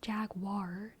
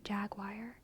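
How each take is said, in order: First: The last syllable sounds like 'war'. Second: The last syllable sounds like 'wire'. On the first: "it is pronounced Jaguar" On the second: "they say Jaguar because I think it's easier for us"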